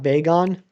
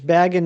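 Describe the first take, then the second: First: The name is said not rhyming with dragon. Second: The name is said to rhyme with dragon. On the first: The speaker calls it wrong. "not bagon" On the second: The speaker calls it right. "It's baggin, not bagon. / Like dragon, except with a B"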